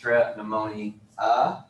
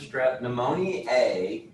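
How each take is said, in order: First: The word ends without an 'ay' sound. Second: The word ends with an 'ay' sound. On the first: The speaker calls it right. "It should be pronounced" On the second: The speaker calls it wrong. "I always say it with the A"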